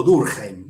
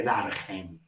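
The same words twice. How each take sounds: First: First syllable of Durkheim rounded to "dur". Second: First syllable of Durkheim opened to "dar". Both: Shown as a demonstration. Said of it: "nunca supe bien cómo se pronuncia".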